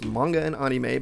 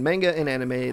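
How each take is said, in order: First: The words have a Japanese-style pronunciation. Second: The words have an English-style pronunciation. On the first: The speaker calls it right. "that's the Japanese pronunciation" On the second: The speaker calls it wrong. "My whole life growing up, it's been manga and anime. That's not how it's said"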